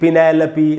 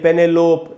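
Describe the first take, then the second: First: The name ends with a final 'pee' syllable. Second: The name ends in a closed 'lope' sound. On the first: The speaker calls it right. "तो इसको हम पढ़ेंगे पिनेलोपी" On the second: The speaker calls it wrong. "न कि ... पेनेलोप, ऐसे नहीं पढ़ना है"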